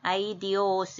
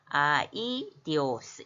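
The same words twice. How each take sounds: First: The first two vowels glide together as one. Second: The first two vowels are split into two syllables. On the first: The speaker calls it wrong. "이렇게 편하게 읽지 말고" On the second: The speaker calls it right. "양쪽을 끊어서 읽으라는 거"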